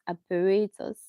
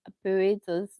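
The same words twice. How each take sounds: Both takes have the same delivery.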